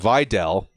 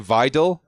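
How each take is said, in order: First: The last syllable sounds like 'dell'. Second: The last syllable does not sound like 'dell'. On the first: "Dell, like Dell Computers" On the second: "I used to say Vidal"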